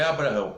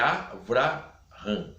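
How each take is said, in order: First: The second consonant is a B sound. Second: The second consonant is a V sound. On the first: The speaker calls it wrong. "não é Abraão" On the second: The speaker calls it right. "é Avraham. É com V"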